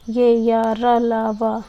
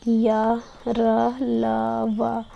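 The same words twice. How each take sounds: First: या, र, ल, व repeated louder and run together in one breath; sounds repeated louder. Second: या, र, ल, व each said alone, slowly and distinctly, as a teaching demo; sounds from within shown. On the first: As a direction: say ये या, र, ल, व again, louder, as one quick string. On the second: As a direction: pause after each of या, र, ल, व so the class hears it. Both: Shown as a demonstration. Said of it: "बोलने पे अंदर से ये ध्वनियाँ निकल रही हैं".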